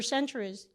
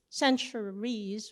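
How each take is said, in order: First: Said in the usual way. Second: CENTURIES drawn out slowly, syllable by syllable; "centuries" said very slowly and deliberately; emphatic repeat. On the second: Real, not acted. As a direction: stretch "centuries" to half speed for weight.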